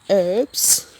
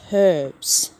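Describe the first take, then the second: First: The word starts without an h sound. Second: The word starts with an h sound. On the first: This is how Americans say it. "You Americans pronounce herbs as in" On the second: This is how Australians say it. "We pronounce it"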